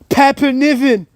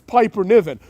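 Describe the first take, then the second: First: The name is said in a Scottish accent. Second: The name is said in the speaker's ordinary accent.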